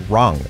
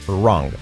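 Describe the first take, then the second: The two takes are said the same way.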